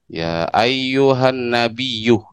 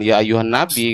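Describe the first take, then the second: First: The last word ends with a doubled y and u. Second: The last word ends with a short plain i. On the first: The speaker calls it right. "Seperti itu kan?" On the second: The speaker calls it wrong. "Bukan ya ayyuhan nabi kan?"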